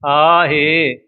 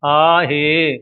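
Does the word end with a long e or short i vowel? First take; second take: long e; long e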